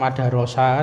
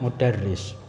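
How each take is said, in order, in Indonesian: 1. Semua vokal dalam kata ini adalah 'a'. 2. Kata ini diawali 'u' dan ada 'i'. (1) "dibaca fathah semua" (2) "karena sudah terbiasa ini bacanya mudarris"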